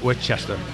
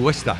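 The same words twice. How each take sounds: First: It is said the way outsiders say it. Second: It is said the local Massachusetts way. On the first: This is how outsiders say it. The speaker calls it wrong. "not Worcester" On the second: This is how locals say it. The speaker calls it right. "we say Worcester"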